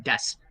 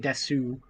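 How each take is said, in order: First: The word ends without the final vowel. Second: The word ends with a full final vowel. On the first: The speaker calls it right. "They just say des" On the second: The speaker calls it wrong. "They don't say desu"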